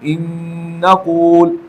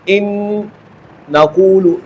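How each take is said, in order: First: The two n sounds merge into one doubled n. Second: The two n sounds are said separately. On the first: The speaker calls it right. "पहले नून को दूसरे नून में दाखिल करके दोनों को मुशद्दद पढ़ा" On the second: The speaker calls it wrong. "इस तरह मैंने नहीं पढ़ा, दो नून को अलग अलग नहीं पढ़ा"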